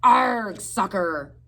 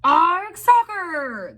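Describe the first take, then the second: First: Loud pirate jeer; captain yelling a rowdy jeer. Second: Very high, loud pirate chorus; crew yell. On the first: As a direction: bark it after kicking the ball. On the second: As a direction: yell it back as the whole crew. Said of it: "the crew yelled". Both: A narrator's reading.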